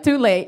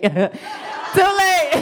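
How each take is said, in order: First: Said in the usual way. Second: High-pitched cry breaking into laughter; laughing shout. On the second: Retold or imitated. Comedian answering the paramedic's worry about broken insides, laughing shout. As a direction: shout it out, cracking up.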